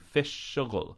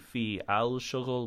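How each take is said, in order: First: The words run together as fish shughul. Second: Each word is separate, with a full al. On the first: The speaker calls it right. "we say fish shughul. Notice that we run them together" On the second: The speaker calls it wrong. "We don't say fi al shughul"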